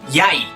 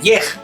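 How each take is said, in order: First: It ends with an ai diphthong. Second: It ends with an e and a g sound. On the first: The speaker calls it right. "se pronuncia yai" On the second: The speaker calls it wrong. "No se pronuncia yej"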